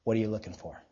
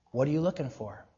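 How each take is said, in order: First: Very low, soft, probing repeat; hushed, serious insistence; pressing sincere question. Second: Softer, lower rhetorical question; quiet challenge to the listeners; searching question. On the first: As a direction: ask it in earnest, dropping low and quiet. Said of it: "I mean, really". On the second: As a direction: ask it quietly and leave it hanging. First asking of a searching question. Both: Real, not acted.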